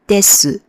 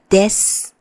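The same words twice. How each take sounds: First: It ends with a full final vowel. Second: It ends in a clipped s sound. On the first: The speaker calls it wrong. "you don't pronounce it as" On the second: The speaker calls it right. "almost like a very silent S in the end"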